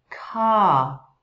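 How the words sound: The final r is dropped, vowel lengthened. "no inglês britânico ... ele vai ser omitido esse som e prolongamos o som da vogal"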